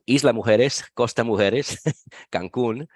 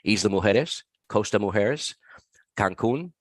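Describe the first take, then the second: First: It is said with a Mexican accent. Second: It is said with an American accent.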